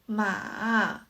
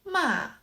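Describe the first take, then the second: First: The pitch falls first and then rises. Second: The pitch falls from high to low. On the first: "The third tone is" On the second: "The fourth tone"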